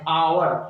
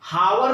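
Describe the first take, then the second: First: The word begins with a vowel sound. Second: The word begins with an h sound. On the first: The speaker calls it right. "उच्चारण जो है इसका vowel है" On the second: The speaker calls it wrong. "हावर नहीं पढ़ते हैं"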